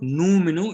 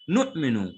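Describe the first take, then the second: First: The first syllable runs smoothly into the next. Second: A sharp glottal catch follows the first syllable. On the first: The speaker calls it wrong. "This is not Numinu" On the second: The speaker calls it right. "Nu with a jhatka. The Hamza will give a jhatka"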